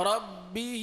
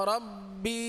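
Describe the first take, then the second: Both takes have the same delivery.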